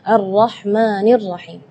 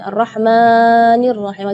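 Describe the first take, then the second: First: The long vowel is held for two counts. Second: The long vowel is stretched beyond two counts. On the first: The speaker calls it right. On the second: The speaker calls it wrong.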